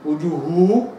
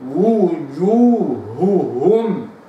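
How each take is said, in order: First: The two h sounds run together as one. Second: Each of the two h sounds is fully articulated. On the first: The speaker calls it wrong. "لو أنا قلت وجوه وجوه لا يمكن أن تكون الهاء في المخرج الدقيق" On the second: The speaker calls it right. "لابد وأن أعود وأرجع إلى مخرج الهاء مرة ثانية فأقول هو هكذا"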